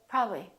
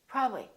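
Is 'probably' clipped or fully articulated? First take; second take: clipped; clipped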